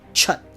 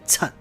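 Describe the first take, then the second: First: It begins with a ch sound, lips rounded. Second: It begins with a ts sound, lips unrounded. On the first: The speaker calls it wrong. "It's not chut" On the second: The speaker calls it right. "it's tut"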